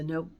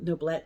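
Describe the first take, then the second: First: The final t sound is silent. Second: The final t sound is pronounced. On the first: The speaker calls it right. "if it doesn't have an E, you don't say it" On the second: The speaker calls it wrong. "excuse me"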